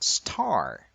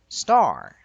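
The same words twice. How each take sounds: First: The t has a puff of air. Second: The t has no puff of air. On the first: The speaker calls it wrong. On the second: The speaker calls it right.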